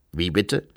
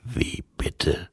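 First: Lightly voiced Revisor, lower and puzzled; a hint of a low-voiced official; questioning Revisor. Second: Low, whispery voice of Death; hollow, lowered question. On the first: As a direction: ask it briskly in a lowered voice. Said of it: "fragte der Revisor". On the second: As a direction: ask it as Death, hushed and low. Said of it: "fragte Tod". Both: A narrator's reading.

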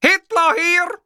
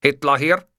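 First: Very high, loud yell; screaming. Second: Said in the usual way. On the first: A narrator's reading. Man shouting over ever louder music, screaming. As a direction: scream it into the phone. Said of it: "schrie ich".

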